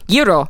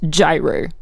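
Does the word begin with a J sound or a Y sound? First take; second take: Y sound; J sound. First: The word begins with a Y sound. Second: The word begins with a J sound. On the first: This is how Australians say it. "in Australia, which we spell Y-E-E-R-O" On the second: This is how Americans often say it. "is spelled in America G-Y-R-O and often pronounced gyro"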